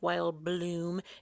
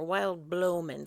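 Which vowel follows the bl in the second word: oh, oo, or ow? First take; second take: oo; oh. First: The second word is one syllable with an oo vowel. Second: The second word is two syllables with an oh vowel. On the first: The speaker calls it right. "It doesn't look like it's spelled like Wild Bloom" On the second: The speaker calls it wrong.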